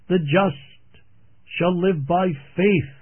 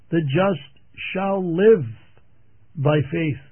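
First: The stress is on the word faith. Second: The stress is on the words shall live.

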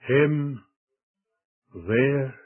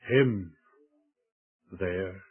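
First: The stress is on the word there. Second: The stress is on the word him.

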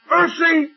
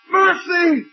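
First: It is a plain call for attention. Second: It is a desperate, anguished cry.

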